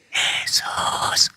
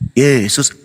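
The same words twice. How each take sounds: First: The name is whispered softly. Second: The name is shouted loudly.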